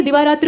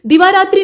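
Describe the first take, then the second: First: दिवारात्र ending in tra; no i closing दिवारात्र. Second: दिवारात्रि ending in tri; i sound closing दिवारात्रि; wrong -tri ending. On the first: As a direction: say दिवारात्र with a short final a. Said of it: "दिवारात्र होता है". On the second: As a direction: say दिवारात्रि with final i. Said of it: "नहीं बल्कि दिवारात्र होता". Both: Shown as a demonstration.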